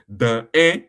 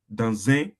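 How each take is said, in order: First: The two words are said apart, without linking. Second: The two words run together in one linked sound. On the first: The speaker calls it wrong. "Instead of pronouncing it dans un restaurant" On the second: The speaker calls it right. "you are joining them together"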